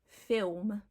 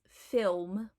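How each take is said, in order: No difference in how they are said.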